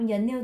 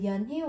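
First: The h sound is dropped and linked over. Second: The h sound is clearly pronounced. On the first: The speaker calls it right. "người ta đọc là dền như tôi nha" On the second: The speaker calls it wrong. "người ta không đọc là dền hiu"

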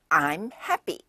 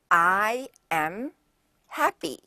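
First: I and am are joined into one contracted syllable. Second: I and am are said as two separate words. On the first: "이거를 I'm happy. 이렇게 하죠" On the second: "예를 들면"

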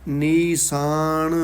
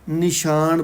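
First: The middle consonant is a plain s sound. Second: The middle consonant is an sh sound. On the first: The speaker calls it right. "ਇਹ ਸੱਸੇ ਨਾਲ ਹੀ ਉਚਾਰਨ ਕਰਨਾ ਹੈ" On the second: The speaker calls it wrong. "ਬਹੁਤੀ ਕਰਕੇ ਨਿਸ਼ਾਨ ਪੜ੍ਹਦੇ ਨੇ"

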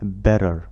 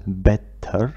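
First: The middle consonant is a soft d. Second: The middle consonant is a clear t. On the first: The speaker calls it right. "نلفظ better better" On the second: The speaker calls it wrong. "لا نلفظ better"

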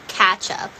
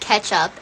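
First: The first syllable sounds like 'catch'. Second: The first syllable sounds like 'ketch'. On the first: "catch-up is like catching up" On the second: "pronouncing it ketchup and not catch-up"

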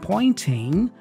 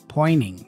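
First: The T after the N is clearly pronounced. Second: The T after the N is dropped. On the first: "instead of saying pointing" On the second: "we hear pointing, pointing with the N there"

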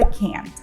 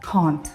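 First: It is said in an American accent. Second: It is said in a British accent. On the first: "Якщо ви американець і хочете сказати «cannot» у скороченні" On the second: "Якщо ви британець і кажете «cannot» у скороченні, то це звучить як"

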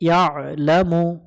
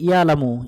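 First: The middle sound is squeezed in the throat. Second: The middle sound is plain, with no throat squeeze. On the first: The speaker calls it right. "আইন অক্ষরটা একটু গলা চেপে উচ্চারণ করব" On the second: The speaker calls it wrong. "অনেকজন এখানে ভুল করে ইয়ালামু"

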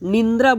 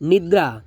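First: A nasal n sound comes before the d. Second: No nasal sound comes before the d. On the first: The speaker calls it wrong. "આપણે ઘણી વખતે નિંદ્રા બોલીએ છીએ, actually નિંદ્રા શબ્દ જ નથી" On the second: The speaker calls it right.

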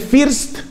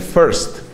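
First: The vowel sounds like a Spanish i. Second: The vowel sounds like a Spanish e. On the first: The speaker calls it wrong. "No se dice first" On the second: The speaker calls it right. "se dice first. Para mí eso me suena como una E"

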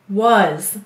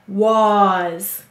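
First: The vowel is a weak, lazy 'uh' sound. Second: The vowel is a full, exaggerated 'ah' sound. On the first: This is how the word is normally said. "Did you hear maybe a lazy vowel sound?" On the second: This is how the word is said to help spell it. "That's how we'll say to spell"

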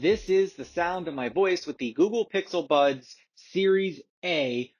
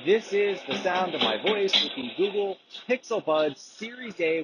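First: The voice is heard with no background noise. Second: The voice is heard over running background noise.

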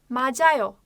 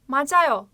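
No difference in how they are said.

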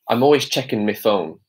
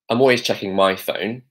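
First: The word before phone sounds like me. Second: The word before phone sounds like my. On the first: "he says me instead of my" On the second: "if I was to say this"

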